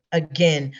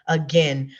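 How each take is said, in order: Both takes have the same delivery.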